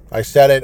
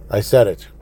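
First: Louder, defiant; host doubling down on listeners, loud and defiant; defiant repeat. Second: Said in the usual way. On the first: Real, not acted. Real defiant shout.

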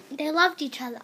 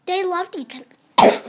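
First: Said in the usual way. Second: Loud. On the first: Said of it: "Sorry, a bit of a cough". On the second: Shown as a demonstration.

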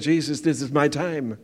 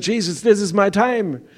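First: Said in the usual way. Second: "Jesus, this is my time." said higher and louder; loud proclaimed prayer. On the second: Retold or imitated. Repeats prayer, now proclaimed.

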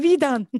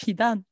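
First: Louder and higher, pushing back hard; repeating the question at full indignation; indignant retort. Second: Said in the usual way. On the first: Retold or imitated. Student repeats her question to the teacher, louder and indignant. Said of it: "Ich so". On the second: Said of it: "Ich so, „Wie dann?".

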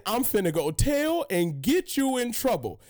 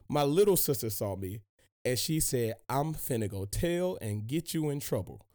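First: Mock tattletale voice, raised; imitating a bratty little sister; sing-song snitching sister; little sister tattling. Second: Said in the usual way. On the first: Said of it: "She just said". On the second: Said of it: "Her exact words".

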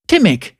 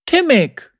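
First: Somewhat lifted, steadier woman's voice; assuring young heroine. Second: Put-on high-pitched child's voice; young boy. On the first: Acted. Heroine addressing the boy before promising help, steady and assuring. Zeri repeats the boy's name. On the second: Boy giving his name to his rescuer, high childlike voice. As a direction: answer as a small boy, pitched up.

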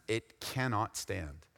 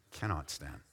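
First: "cannot" leaned on, slow and softer; stress on cannot. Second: "Cannot" stressed, then both words dropped very low and soft; dropped, hushed cannot stand. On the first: Shown as a demonstration. Preacher correcting "will not" to "cannot" for the church, slow stress. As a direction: draw out "cannot" slowly. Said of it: "It's not just will not stand". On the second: Acted. Preacher finishing the proverb to his church, hushed and stressed. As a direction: let "Cannot stand" sink to a hush. Quoting scripture, voice drops away.

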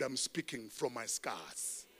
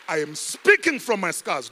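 First: Soft, slow "I'm speaking from my scars". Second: Loud, punched "speaking from my scars"; loud declaration. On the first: Pastor quietly assuring the congregation, soft and slow. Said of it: "I am not speaking from my wound". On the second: Pastor proclaiming to the church, loud. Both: Shown as a demonstration.

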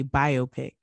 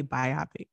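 First: Biopic said BYE-oh-pick; biopic split as bio and pick; current pronunciation. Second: Biopic said bye-OP-ic; biopic run together like myopic, bye-OP-ic; old pronunciation. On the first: Co-host on what bothers her, current pronunciation BYE-oh-pick. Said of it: "And now we say biopic". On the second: Co-host on what bothers her, old pronunciation bye-OP-ic. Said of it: "people used to say biopic". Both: Shown as a demonstration.

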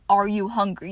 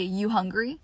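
First: Said in the usual way. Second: Relaxed, easy rising question; casual clipped question. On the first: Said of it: "And you don't say". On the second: Shown as a demonstration. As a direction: toss it off like to a sibling. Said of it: "You say".

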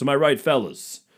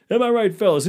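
First: Hack comic catchphrase. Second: Much higher, louder hammed-up "Am I right, fellas?"; louder catchphrase. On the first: Pretend. Repeated catchphrase louder. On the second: Comic parodies a club comic, repeating the catchphrase louder. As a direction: push the catchphrase up high and loud.

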